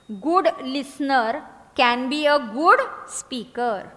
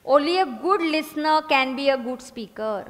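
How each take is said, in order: First: Each word stretched far apart; very slow dictation. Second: Drawn out, steady; slow dictation. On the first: Teacher repeating the motto very slowly for writing. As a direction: drag it out word by word. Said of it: "listening के आगे लिखो". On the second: Teacher dictating a motto, slow. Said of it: "उसके आगे लिखना". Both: Shown as a demonstration.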